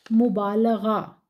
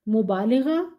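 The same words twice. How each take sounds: First: मुबालगा slowly, short a after l; correct pronunciation. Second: मुबालिगा with i after l, the common mistake; wrong pronunciation. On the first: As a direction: spell out मुबालगा carefully, bā-la-gā. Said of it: "मुबालगा दुरुस्त है". (सही उच्चारण मुबालगा, धीरे से) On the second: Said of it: "मुबालिगा गलत है". (गलत उच्चारण मुबालिगा) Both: Shown as a demonstration.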